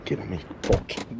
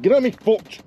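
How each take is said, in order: First: Low unvoiced mutter; muttering under breath. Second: Exasperated exclaim. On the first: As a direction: whisper it to yourself. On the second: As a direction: call it out annoyed. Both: Real, not acted. Repeats line differently.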